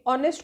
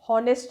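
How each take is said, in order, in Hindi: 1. शब्द सीधे स्वर की ध्वनि से शुरू होता है। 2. शब्द एक साफ़ सुनाई देने वाली एच ध्वनि से शुरू होता है। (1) "ओ से स्टार्ट करते हैं, नॉट एच" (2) "हॉनेस्ट नहीं होता"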